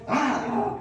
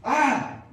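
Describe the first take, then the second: First: Loud, high demon shriek with an unnatural tone; second take of the demon scream; demon cry repeated. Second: Loud, high shriek of a demon; sudden shrieking demon yell; demon cry. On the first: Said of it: "A ver, repetimos". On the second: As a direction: let out a loud possessed cry. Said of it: "qué es lo que decía este espíritu inmundo". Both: Acted.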